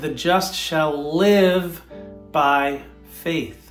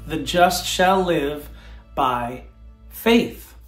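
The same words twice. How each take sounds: First: The word live is stressed. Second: The word faith is stressed.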